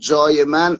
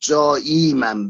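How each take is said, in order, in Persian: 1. مصوت میانجی قبل از 'man' کوتاه است. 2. مصوت میانجی قبل از 'man' بلند است. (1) "از نظر عروضی حساب بکنیم جای من غلط میفته" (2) "باید جایی من باشه"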